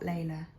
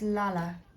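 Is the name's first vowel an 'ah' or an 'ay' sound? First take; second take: ay; ah. First: The first vowel is an 'ay' sound. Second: The first vowel is an open 'ah' sound. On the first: The speaker calls it wrong. "not Layla" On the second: The speaker calls it right. "Her name is Lala"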